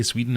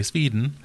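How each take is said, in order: First: Said in the usual way. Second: Sweden in mock Swedish, "Sveeden"; terrible Swedish accent. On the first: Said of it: "can't say Sweden anymore". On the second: Shown as a demonstration. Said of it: "that's a terrible accent".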